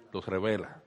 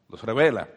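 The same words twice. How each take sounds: First: Dropped low and quiet; soft aside. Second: Said in the usual way. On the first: Shown as a demonstration. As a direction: let it sink in softly.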